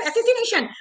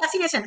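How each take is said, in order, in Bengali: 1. শব্দটি উচ্চারণ করা হয় তার মাঝের অক্ষরসহ পুরোপুরি। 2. শব্দটি উচ্চারণ করা হয় তার মাঝের অক্ষর ছাড়া। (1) "ক্যারেক্টার অ্যাসিসিনেশন" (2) "একজন বলছে ক্যারেক্টার অ্যাসিনেশন। আরে অ্যাসিনেশন কথাটা কেউ তোলেনি"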